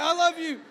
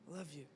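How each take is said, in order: First: High, very loud comic farewell; calling out lovingly. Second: Low, very soft declaration; whispering bed. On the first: Bed calling after the departing sleeper, hammed-up loving shout. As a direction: shout devotion after someone leaving. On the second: Bed keeping the sleeper from getting up, whispering. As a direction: murmur it tenderly as the bed. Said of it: "my bed whispers to me". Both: Acted.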